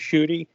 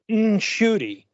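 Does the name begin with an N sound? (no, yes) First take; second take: no; yes. First: The name begins without an N sound. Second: The name begins with an N sound. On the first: The speaker calls it wrong. "So I just keep it to Shooty" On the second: The speaker calls it right. "like there's an N sound in it, um, properly"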